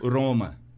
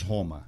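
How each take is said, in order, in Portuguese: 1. O R é falado do jeito italiano. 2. O R é falado do jeito do português brasileiro. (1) "Eles falam" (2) "Nós falamos Roma"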